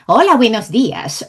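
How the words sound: The pitch moves up and down throughout. The speaker calls it right. "요거예요"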